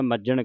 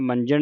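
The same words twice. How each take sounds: First: ਮੱਜਣ with a doubled j and no n; ਮੱਜਣ, geminate j; correct reading. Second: ਮੰਜਣ with a nasal n before j; ਮੰਜਣ, nasal instead of a doubled j; wrong reading shown. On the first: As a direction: hold the j in ਮੱਜਣ, no nasal. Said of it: "ਮੱਜਣ ਕਹਿਣਾ". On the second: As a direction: say ਮੰਜਣ with the added n, as the mistake. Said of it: "ਇਹਨੂੰ ਮੰਜਣ ਨਹੀਂ ਕਹਿ ਦੇਣਾ". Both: Shown as a demonstration.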